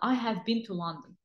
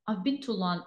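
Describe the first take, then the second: First: 'I have' is said as two full words. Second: 'I have' is contracted to 'I've'. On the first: The speaker calls it wrong. "you don't have to say I have" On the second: The speaker calls it right.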